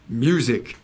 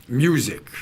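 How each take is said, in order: The two takes are said the same way.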